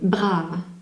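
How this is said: The word is pronounced with French sounds. "je le prononce en français"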